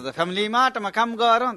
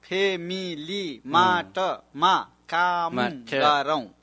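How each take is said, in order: First: Said quickly, with a soft, blurred first sound. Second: Said carefully, starting with a clear p sound. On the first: "早く言うときはそういうふうになってるかもしれない" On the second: "本当は"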